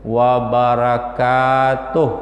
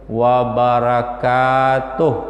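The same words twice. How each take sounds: First: The ka syllable is drawn out long. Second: The ka syllable is drawn out long.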